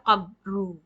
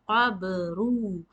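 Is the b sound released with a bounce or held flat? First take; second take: flat; bounced. First: The b is stopped flat without a bounce. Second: The b is released with an echoing bounce. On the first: The speaker calls it wrong. "You cannot say qabru" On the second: The speaker calls it right. "The correct pronunciation is qabru. The, this is called shaking"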